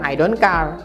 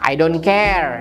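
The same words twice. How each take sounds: First: The vowel in care sounds like ah. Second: The vowel in care sounds like eh. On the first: The speaker calls it wrong. "Jadi bukan" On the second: The speaker calls it right. "itu A-nya dibaca E ya"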